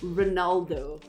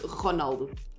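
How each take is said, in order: First: The first R is pronounced soft. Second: The first R is pronounced hard. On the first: "in English you say Ronaldo" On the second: "you hard R that stuff"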